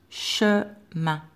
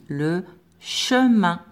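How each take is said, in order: First: Said in the usual way. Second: Le chemin drawn out slowly, each syllable clear; slow dictation. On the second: Shown as a demonstration. Teacher dictating a word to pupils, very slow. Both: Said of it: "on va écrire un mot de deux syllabes".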